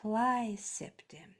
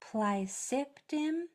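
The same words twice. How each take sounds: First: The stress is on the first syllable. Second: The stress is not on the first syllable. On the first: "that first syllable is accented. So it would, it would be pronounced plicipdim" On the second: "if you said it like this, plicipdim, that's okay"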